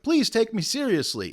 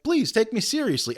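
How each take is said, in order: First: High-pitched mock plea; imitated high, pleading voice; begging. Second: High mock begging; same high plea, played for comedy. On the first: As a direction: plead as if desperate to be believed. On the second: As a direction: imitate a pleading appeal. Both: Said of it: "like, begging".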